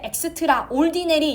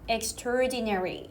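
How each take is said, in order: First: It is split into two parts, extra and ordinary. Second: It is run together as one unit, extra reduced. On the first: The speaker calls it wrong. "extra, ordinary 이렇게 하면 어디 가서 나한테 영어 배웠다고 하지 마" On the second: The speaker calls it right. "그냥 extra를 안 살립니다. ... 이렇게 하나로 연결 지어요"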